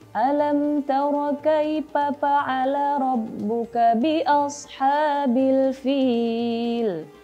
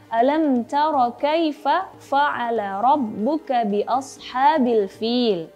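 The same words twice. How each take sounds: First: The word fa'ala begins with a p sound. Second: The word fa'ala begins with an f sound. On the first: The speaker calls it wrong. "ada yang membaca fa-nya itu menjadi pa" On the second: The speaker calls it right. "padahal itu harusnya membaca"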